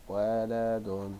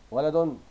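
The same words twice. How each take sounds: First: ولد very slow, in parts wa-la-dun; drawn-out, separated syllables of ولد. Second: ولد loud, high and quick, ending in -un; loud, connected ولد; whole-word model reading. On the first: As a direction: stretch each syllable of ولد evenly. Same word broken into syllables. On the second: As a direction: call out ولد in one go as "waladun". Teacher reads word whole, then split. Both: Shown as a demonstration.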